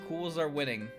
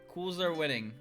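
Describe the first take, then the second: Both takes have the same delivery.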